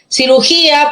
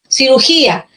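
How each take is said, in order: First: "Cirugía" with the stress leaning on GÍ, the second-to-last syllable, as the word's accented beat. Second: Said in the usual way. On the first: Shown as a demonstration. Teacher to class showing where "Cirugía" takes its stress, leaning on GÍ. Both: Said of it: "por la posición del acento".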